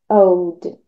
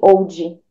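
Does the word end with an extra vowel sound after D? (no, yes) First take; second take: no; yes. First: The final D is soft, with no added vowel. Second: An extra "i" vowel follows the final D. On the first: The speaker calls it right. "deixa bem sutil esse old" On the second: The speaker calls it wrong. "Não fale old"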